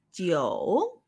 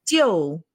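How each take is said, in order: First: Jiu said low, dipping then rising, third tone. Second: Jiu said with a sharp falling fourth tone. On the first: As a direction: let jiu dip low and come back up, as in 久. (jiu en tercer tono, bajando y subiendo) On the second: (jiu con cuarto tono, descendente y cortante) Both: Shown as a demonstration. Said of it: "tercer tono".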